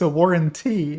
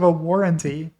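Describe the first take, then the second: First: One syllable is pronounced with extra weight. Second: The word is said in the ordinary way. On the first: This is how the warranty robocallers say it. "They always pronounce this syllable when they call you" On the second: This is how people normally say it. "instead of"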